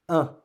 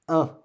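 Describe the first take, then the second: No difference in how they are said.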